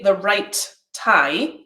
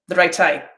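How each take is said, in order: First: There is a held gap between right and tie. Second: Right and tie run together with no gap. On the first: "I've got a delay in there and make the space" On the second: "if I don't use the delay"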